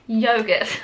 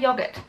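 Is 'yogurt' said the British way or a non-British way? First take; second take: non-British; British. First: The word is said with a non-British pronunciation. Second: The word is said with a British pronunciation. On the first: The speaker calls it right. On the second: The speaker calls it wrong.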